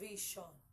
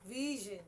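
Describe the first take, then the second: First: The middle consonant is a voiceless 'sh' sound. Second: The middle consonant is a voiced 'zh' sound. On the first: The speaker calls it wrong. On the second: The speaker calls it right.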